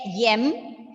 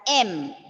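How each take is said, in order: First: The letter name begins with a y sound. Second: The letter name begins with a plain vowel. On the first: The speaker calls it wrong. "That is wrong" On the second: The speaker calls it right. "You have to pronounce the alphabet as M"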